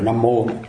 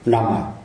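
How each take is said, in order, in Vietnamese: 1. Từ này kết thúc bằng âm tiết 'mo'. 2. Từ này kết thúc bằng âm tiết 'ah' mở. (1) "chứ cũng phải là Nam Mô" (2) "người ta đọc đó thì đọc là Nam à"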